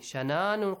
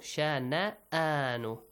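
First: The middle glottal stop is left out. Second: The middle glottal stop is clearly pronounced. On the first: The speaker calls it wrong. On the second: The speaker calls it right. "Hamza it has"

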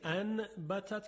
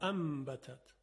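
First: An n sound comes before the b. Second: An m sound comes before the b.

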